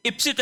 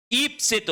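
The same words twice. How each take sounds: First: इप्सित with short opening i; wrong pronunciation. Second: ईप्सित with long opening ee; correct long vowel. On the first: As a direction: say इप्सित as "ip-sit". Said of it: "नहीं होता है". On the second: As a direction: say ईप्सित as "eep-sit". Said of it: "बड़ी ई की मात्रा". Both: Shown as a demonstration.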